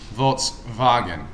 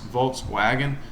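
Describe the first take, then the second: First: The second part begins with a V sound. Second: The second part begins with a W sound. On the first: The speaker calls it right. "the W in German makes the V sound, so it's actually Volkswagen" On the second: The speaker calls it wrong. "it's not supposed to be really pronounced Volkswagen"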